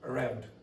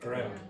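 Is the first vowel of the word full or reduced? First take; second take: reduced; reduced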